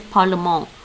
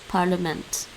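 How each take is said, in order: First: It is pronounced like the French word. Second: It is pronounced close to the English word. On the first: The speaker calls it wrong. "I want to say parlement, like in French" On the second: The speaker calls it right. "It's really close to the English, actually"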